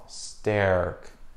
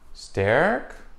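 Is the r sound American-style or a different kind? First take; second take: American-style; American-style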